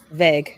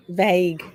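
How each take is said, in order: First: "vague" with a short eh, like veg; American "vague". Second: "vague" with a long ay glide, vayg; Australian "vague". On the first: Host comparing with her own way, "vague" as American veg. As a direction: say "vague" to rhyme with leg, American style. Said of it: "you, y'all say vague". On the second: Host comparing with the American way, "vague" as Australian vayg. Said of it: "I mean, I say vague". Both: Shown as a demonstration.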